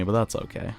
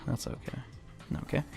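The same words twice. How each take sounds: First: Said in the usual way. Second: Breathy whisper, under his breath; whispered to himself. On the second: Real, not acted. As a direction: whisper it to reassure yourself.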